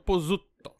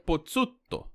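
First: The double z sounds like a plain z. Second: The double z sounds like ts, as in pizza. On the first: This is how it is commonly said in Brazil. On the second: This is how an Italian would say it.

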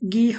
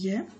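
First: The word begins with a hard g sound. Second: The word begins with a y sound. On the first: The speaker calls it wrong. "ইয়ে গি হবে না, এটা গ উচ্চারণটা হবে না" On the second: The speaker calls it right. "ইয়ে হবে ইয়ে"

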